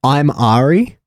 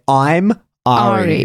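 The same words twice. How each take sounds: First: It is said casually, without extra force. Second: It is said with strong, deliberate emphasis.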